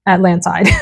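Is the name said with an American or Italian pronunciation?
American. It is said with an American-style pronunciation.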